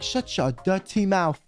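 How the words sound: It is said in a British accent. The speaker is joking. "I say in like a British accent"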